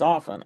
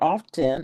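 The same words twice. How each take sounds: First: The T is silent in the middle. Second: The T is clearly pronounced in the middle. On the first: The speaker calls it right. "You don't pronounce the T" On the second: The speaker calls it wrong. "It's not a hard T. It's not often"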